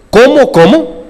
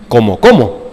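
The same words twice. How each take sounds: First: High rising squeak on ¿Cómo, cómo?, pitch jumping up; imitating his teacher. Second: ¿Cómo, cómo? dropped low and flat; teacher's low echo. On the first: Preacher mimicking his old teacher, high rising question. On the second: Retold or imitated. Preacher mimicking his old teacher, low answer. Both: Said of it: "como decía mi maestro".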